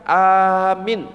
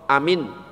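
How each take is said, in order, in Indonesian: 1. Hanya vokal pertama yang panjang. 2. Kedua vokal pendek. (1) "Ada yang A-nya dipanjangkan" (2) "Contoh amin berarti artinya apa? Aman"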